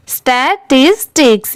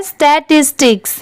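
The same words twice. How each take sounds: First: स्टैटिस्टिक्स broken into three separate syllables. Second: Said in the usual way. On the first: Shown as a demonstration. Teacher showing learners how to read स्टैटिस्टिक्स, syllable by syllable. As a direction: sound out स्टैटिस्टिक्स in chunks, a tiny gap after each. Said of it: "यहाँ पर देखिए स्टैटिस्टिक्स".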